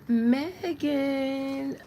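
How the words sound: The name is said in a bright, cheerful way.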